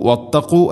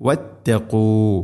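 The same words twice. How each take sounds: First: واتقوا said with a front k; wrong reading. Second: واتقوا slow, with a deep qaf from the back of the throat; slow correct واتقوا. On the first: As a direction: demo the mistaken واتقوا. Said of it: "അല്ല". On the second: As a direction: model واتقوا, qaf at the uvula. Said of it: "ഖാഫിൻ്റെ ഉച്ചാരണം ശ്രദ്ധിക്കുക". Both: Shown as a demonstration.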